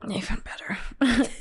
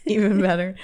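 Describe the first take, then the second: First: Breathy conspiratorial whisper. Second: Said in the usual way. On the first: Real, not acted. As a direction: whisper it like a secret. Teasing hushed reveal.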